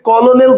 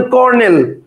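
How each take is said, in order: First: কলোনেল with an extra "lo" syllable, ko-lo-nel; wrong pronunciation. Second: Said in the usual way. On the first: Shown as a demonstration. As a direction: say কলোনেল in three syllables, as misspelt. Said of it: "তো আপনি উচ্চারণ করেন না". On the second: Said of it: "আপনি বলেন কর্নেল".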